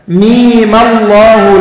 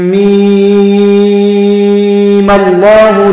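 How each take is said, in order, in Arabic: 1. حركة الميم قصيرة، حركتان. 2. حركة الميم ممدودة، ست حركات. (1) "ثم تأتي عند ميم وتقصرها إيه؟ حركتين، وتصلها بلفظ الجلالة" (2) "تصل الميم بلفظ الجلالة وتمد إيه؟ 6 حركات"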